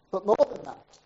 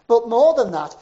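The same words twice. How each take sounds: First: Said in the usual way. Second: Loud, pressing refrain; preaching shout. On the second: Retold or imitated. Preacher driving his point home to the congregation, louder. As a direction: hammer it out to the crowd.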